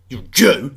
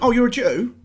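First: It is said in a contemptuous, sneering tone. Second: It is said in a friendly, casual tone.

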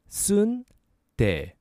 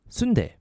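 First: The word is said at a slower pace. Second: The word is said at a faster pace.

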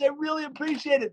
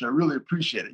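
First: It is said warmly, with strong feeling. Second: It is said flatly, without much feeling. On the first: The gratitude is heartfelt and eager. The speaker calls it right. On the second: The gratitude is calculated and cerebral. The speaker calls it wrong.

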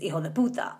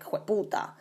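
First: Every word is said fully and separately. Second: The words run together into one short word. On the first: "a very common curse in Spanish is" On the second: "they pronounce it slightly different. So it's more like"

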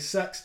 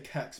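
First: It is one syllable starting with an s. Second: It is one syllable starting with a k. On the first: The speaker calls it wrong. "I don't say sex" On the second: The speaker calls it right. "I say kex, because that is the best kex. Way to say it"

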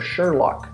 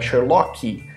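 First: The word ends on the final consonant. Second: An extra vowel sound is added at the end. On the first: The speaker calls it right. "That's the sound" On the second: The speaker calls it wrong. "you're going to hear another extra sound"

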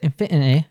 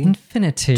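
First: It is said in a Cockney accent. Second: It is said in a British accent. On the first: "Or if you're Cockney, you might say infinity" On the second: "British English, we would probably say the T here"

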